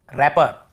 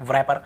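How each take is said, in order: First: रैपर starting straight on R; correct pronunciation. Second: व्रैपर with a V sound before R; wrong pronunciation. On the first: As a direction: say रैपर with the W silent. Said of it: "डब्ल्यू को नहीं पढ़ना". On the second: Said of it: "हम पढ़ ही नहीं रहे". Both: Shown as a demonstration.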